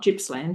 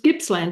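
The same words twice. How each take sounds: First: It begins with a soft G sound. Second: It begins with a hard G sound. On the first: The speaker calls it wrong. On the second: The speaker calls it right. "With a with a hard G"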